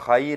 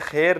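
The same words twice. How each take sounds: First: The vowel is a clear 'ay' glide. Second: The vowel is a flat 'e' without a glide. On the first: The speaker calls it right. "ये खैर है, यहाँ भी यह एलिन है" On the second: The speaker calls it wrong. "ये खैर नहीं है"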